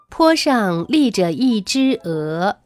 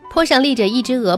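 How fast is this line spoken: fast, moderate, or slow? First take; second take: slow; fast. First: It is spoken slowly and carefully. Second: It is spoken quickly. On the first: "大家记得要尽可能的把语速放慢" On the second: "当然后续你还可以再加快语速。"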